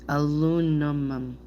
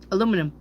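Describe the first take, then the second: First: The word is said slowly and carefully. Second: The word is said quickly and rushed. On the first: The speaker calls it right. "if I slow down, I can do it though" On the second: The speaker calls it wrong. "saying it too fast"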